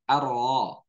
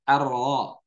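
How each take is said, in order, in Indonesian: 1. Huruf R diucapkan dengan getaran yang samar dan tersembunyi. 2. Huruf R diucapkan dengan getaran yang samar dan tersembunyi.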